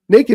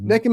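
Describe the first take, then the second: First: The first vowel sounds like 'nay'. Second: The first vowel sounds like 'neck'. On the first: Someone simply has no clothes on. "Naked means you got no clothes on" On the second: Someone has no clothes on and is up to something. "Naked means you got no clothes on and you're up to something"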